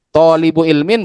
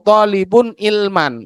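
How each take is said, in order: First: The second word ends with an 'in' sound. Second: The second word ends with an 'an' sound. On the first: It means a seeker of knowledge. "Kalau dibaca seperti ini, tolibu ilmin berarti pencari ilmu" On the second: It means someone seeking knowledge. "kalau sampean baca toliban atau tolibun ilman"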